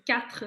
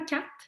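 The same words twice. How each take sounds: First: The final R sound is clearly pronounced. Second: The final R sound is dropped. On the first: The speaker calls it right. "il faut vraiment bien le prononcer" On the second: The speaker calls it wrong. "les gens ne le prononcent pas, pas toujours"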